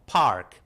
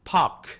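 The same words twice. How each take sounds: First: The r sound is clearly pronounced. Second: The r sound is dropped. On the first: "Mereka akan jelas ngomong park" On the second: "kalau British English mereka lagi-lagi tadi R-nya juga lebih dihilangkan"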